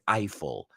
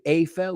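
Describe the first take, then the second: First: It is said in an English accent. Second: It is said in a Spanish-style accent. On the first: "we say Eiffel" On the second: "you say Eiffel"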